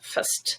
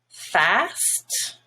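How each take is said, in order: First: The vowel is reduced to a schwa. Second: The vowel is a full, open vowel. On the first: "fast now is unstressed and becomes fast"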